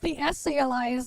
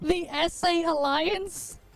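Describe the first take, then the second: First: The name is spoken as the single word essay. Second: The name is spoken as two separate letters. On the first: The speaker calls it wrong. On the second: The speaker calls it right.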